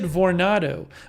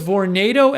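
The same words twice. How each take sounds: First: The word ends unlike the word tornado. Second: The word ends like the word tornado. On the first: The speaker calls it wrong. "I've always said Vornado" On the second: The speaker calls it right. "it's Vornado as in tornado?"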